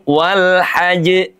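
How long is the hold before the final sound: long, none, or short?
none. The final sound comes straight through without any hold. The speaker calls it wrong. "Jangan langsung"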